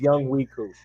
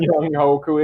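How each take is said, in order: First: The name is said as Young Wee Koo. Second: The name is said as Young Hoku. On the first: The speaker calls it right. "his name is Young Wee Koo" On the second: The speaker calls it wrong. "For everybody that's been calling him Young Hoku"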